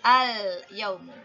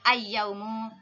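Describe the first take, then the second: First: The L of the article is clearly pronounced. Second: The L merges into the following Y sound. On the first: The speaker calls it right. "hendaklah dibunyikan huruf lam itu dengan jelas" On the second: The speaker calls it wrong.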